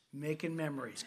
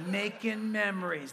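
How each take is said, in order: First: Coaxing memories. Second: Louder, laughing through the words; laughing coax. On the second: Friend urging Chris, now laughing and louder. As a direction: sell it with a grin and a laugh. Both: Retold or imitated. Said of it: "He goes".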